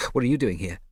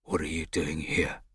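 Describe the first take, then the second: First: Louder, higher, biting retort; spat back. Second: Slow angry hiss. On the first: Scipio snapping back at Mosca, loud and spat. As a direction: throw the same words back hard. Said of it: "Scipio spat back". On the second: Mosca confronting Scipio at the door, hissing. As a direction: hiss it through the teeth, slowly. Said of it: "he hissed at Scipio". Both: A narrator's reading.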